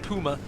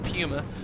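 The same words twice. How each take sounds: First: The word is said with a German pronunciation. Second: The word is said with an English pronunciation. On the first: "the German Puma" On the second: "the English pronunciation of"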